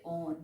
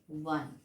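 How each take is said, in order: First: The word begins with a plain vowel sound. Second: The word begins with a w sound. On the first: The speaker calls it wrong. "we never say on" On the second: The speaker calls it right. "we say one. This is the pronunciation"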